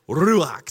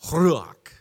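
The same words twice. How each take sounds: First: Ruach with guttural ch ending; Hebrew pronunciation. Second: Ruach with R rolled in throat; rolled throaty R. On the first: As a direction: say Ruach loud with throaty ch. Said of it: "That's how you say it". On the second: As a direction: roll the R of Ruach at back. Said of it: "gotta roll that R in the back of your throat". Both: Shown as a demonstration.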